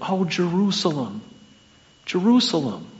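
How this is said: It is said in a pleading tone.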